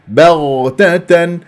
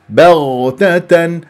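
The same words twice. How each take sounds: Both takes have the same delivery.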